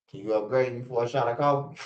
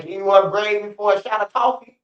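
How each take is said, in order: First: Said in the usual way. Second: Higher, louder imitation of a guy begging for a hit; mock pleading inmate. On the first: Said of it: "they going to the Transformer". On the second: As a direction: ham up a needy inmate asking for a shot.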